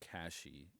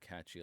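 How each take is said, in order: First: The middle consonant is an 'sh' sound. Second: The middle consonant is a 'ch' sound. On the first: "I also hear Cashy used a lot" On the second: "I hear it catchy a lot"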